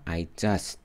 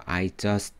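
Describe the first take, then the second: First: "I just" with no vowel after the t; closed ending. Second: "I just" ending in a full teu; added eu vowel. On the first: Teacher showing the preferred version, "I just" without added vowel. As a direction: finish "just" on the consonant. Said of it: "보다". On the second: Teacher showing the less good version, "I just" with extra teu. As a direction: give the t of "just" its own syllable. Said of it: "보다 I just". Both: Shown as a demonstration.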